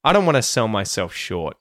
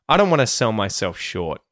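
First: 'Want to' is reduced to 'wanna'. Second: 'Want to' is reduced to 'wanna'.

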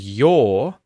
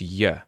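First: The word has its full vowel sound. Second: The word has a reduced schwa vowel. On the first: "And your becomes ya" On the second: "And your becomes ya"

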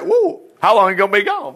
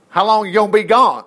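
First: It is said in a surprised, emphatic tone. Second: It is said in a plain, calm tone.

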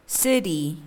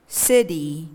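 Both takes have the same delivery.

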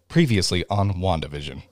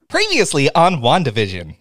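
First: It is said with flat, low energy. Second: It is said with lively, high energy.

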